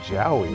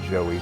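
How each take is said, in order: First: The first vowel sounds like 'ow'. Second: The first vowel sounds like 'oh'. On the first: This is how the spelling reads. The speaker calls it right. "That says Jowie" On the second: This is how most people say it. The speaker calls it wrong. "do you pronounce it the same as Joey? Because most people online seem to"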